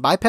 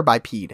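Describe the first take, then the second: First: "biped" ending in short-e "ped"; short-e pronunciation. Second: "bipede" ending in long-e "peed"; long-e pronunciation. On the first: Weighing two pronunciations for the co-host, "biped" with short e. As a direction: say "biped" to rhyme with "bed". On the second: Weighing two pronunciations for the co-host, "bipede" with long e. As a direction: say "bipede" to rhyme with "speed". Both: Shown as a demonstration. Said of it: "Is it biped or bipede".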